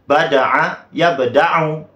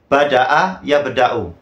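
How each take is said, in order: First: The middle consonant is a throaty ain sound. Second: The middle consonant is a plain glottal stop. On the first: It means to create something new. "bil ain dengan huruf ain" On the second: It means to begin. "Artinya memulai"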